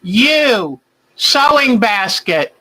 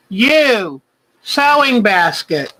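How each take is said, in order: Both takes have the same delivery.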